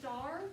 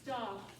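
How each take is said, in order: First: The R sound at the end is held. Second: The R sound at the end is dropped. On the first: The speaker calls it wrong. "are we going to go star and hold the er sound? No" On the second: The speaker calls it right. "The r's are going to be completely gone"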